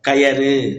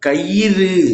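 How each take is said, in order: First: The middle syllable is ya. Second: The middle syllable is yi. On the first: The speaker calls it wrong. "கயறு என்பது தவறு" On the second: The speaker calls it right. "கயிறு அப்படிங்கிறது தான் சரியானது"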